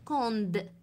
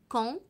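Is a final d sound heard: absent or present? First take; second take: present; absent. First: The word ends with a d sound. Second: The word ends on the nasal vowel. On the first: The speaker calls it wrong. "وليس كوند" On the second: The speaker calls it right. "نقول كون"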